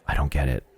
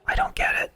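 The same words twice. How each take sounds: First: Said in the usual way. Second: Breathy unvoiced whisper; whispered repeat of the line. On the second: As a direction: whisper it like a secret. Repeats line, second time whispered.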